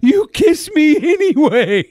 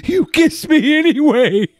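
First: High, slow girlish mimic, laughing; mocking girl voice. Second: Mocking girl voice. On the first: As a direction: mimic her, giggling. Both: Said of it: "She says".

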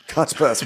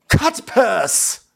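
First: Said in the usual way. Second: High, punched-out "cut purse"; hammed-up insult. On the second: Envoy insulting the prince, hammed-up disdain. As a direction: deliver it high as a grand punchline.

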